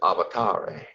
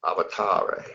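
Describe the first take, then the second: First: It is said with the angelic-language pronunciation. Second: The same.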